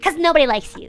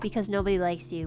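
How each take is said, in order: First: It is said in a mischievous, gremlin-like voice. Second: It is said in a plain, normal voice. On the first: "in the most gremlin way we go like" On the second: "We don't say it like that"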